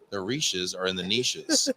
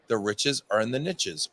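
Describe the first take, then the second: First: It is said with a European pronunciation. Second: It is said with an American pronunciation.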